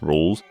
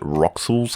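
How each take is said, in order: First: The name is said as one syllable. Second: The name is said as two syllables. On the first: The speaker calls it right. "being pronounced rules" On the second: The speaker calls it wrong. "you still pronounce it Roxul's card or whatever"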